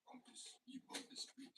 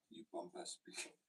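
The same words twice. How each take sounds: First: Very high, soft whispered French sneer; soft mock French retry. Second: Very high, slow French sneer; mock French insult. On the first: Shown as a demonstration. Retrying the joke quietly, faint mock French accent. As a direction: try the French voice again under the breath. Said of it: "Doesn't hit the same". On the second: Retelling a French insult, high mock French accent. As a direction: squeal it like a snooty Frenchman. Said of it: "a French person call me a pompous prick".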